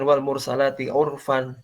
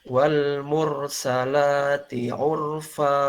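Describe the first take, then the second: First: The last word ends with an n sound. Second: The last word ends with a long a vowel. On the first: The reading continues without stopping. "kalau dibaca singkat" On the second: The reading stops at this word. "ketika diwaqafkan maka berubah menjadi fa"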